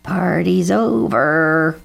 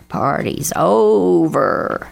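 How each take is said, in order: First: Slow, stretched cawed announcement; cawing crow. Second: Very drawn-out caw, swelling on OVER; cawing crow. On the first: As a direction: caw it out, dragging the vowels. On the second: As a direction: caw it slowly, stretching OVER even longer. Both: A narrator's reading. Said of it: "cawed Bernie Crow".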